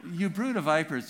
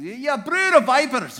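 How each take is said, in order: First: Said in the usual way. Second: Thundering Scottish denunciation, higher and louder, slow; Scottish accent. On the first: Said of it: "just doesn't have the same kick". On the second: Shown as a demonstration. John the Baptist condemning Pharisees in a Scottish accent. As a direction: spit it at the Pharisees in broad Scots. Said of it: "He has to say it with a Scottish accent".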